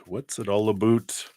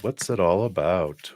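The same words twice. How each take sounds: First: Joking Canadian accent, "about" said like "aboot"; lightly mock Canadian, "about" rising and rounded like "aboot"; playful Canadian accent on "about". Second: Said in the usual way. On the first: Shown as a demonstration. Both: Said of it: "That's my Canadian accent".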